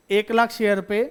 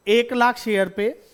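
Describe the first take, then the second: First: Said in the usual way. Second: Slow, each word spaced for the class; lingering on लाख, stretched पे; slow emphatic repeat. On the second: Shown as a demonstration. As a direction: spell it out slowly so nobody misses it. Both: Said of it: "फिर से बोलूं".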